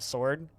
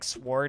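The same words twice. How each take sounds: First: The word is said in its ordinary way. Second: The word is said in an odd, unusual way. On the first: "instead of sword" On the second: "I say like sword"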